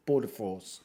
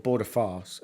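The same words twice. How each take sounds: First: Said in the usual way. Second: "farce" said with a long "ah" vowel in place of "force"; punning mispronunciation. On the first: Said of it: "They're called border farce". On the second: Shown as a demonstration. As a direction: slip "farce" in with an open "ah". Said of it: "uh, border force".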